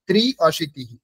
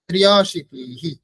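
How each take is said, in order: First: The word is split into two separate parts. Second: The parts are joined with a ya glide. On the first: "এরকম উচ্চারণ করতে পারেন" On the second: "সঠিক উচ্চারণ যেটা ত্রিয়া"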